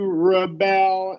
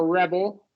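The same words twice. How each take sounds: First: The stress is on the second syllable. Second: The stress is on the first syllable. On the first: It is a verb. "it becomes a stressed syllable because it's a verb" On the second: It is a noun. "so this is obviously a noun"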